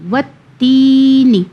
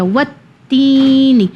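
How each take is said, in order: First: وت تینی with the تا sound drawn out, slow; lengthened ta. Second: وت تینی with تی stretched and نی short; lengthened ta. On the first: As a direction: stretch the تا in تینی, keep نون short. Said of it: "تا کو میں نے تھوڑا سا لمبا کیا". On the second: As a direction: pull out the تی a little in تینی. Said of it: "تا یا ز تی تو تھوڑا سا ہم کھینچیں گے". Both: Shown as a demonstration.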